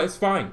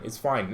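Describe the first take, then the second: First: Mock sarcastic. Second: Flat sarcastic. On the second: Acted. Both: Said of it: "Oh, you know what?".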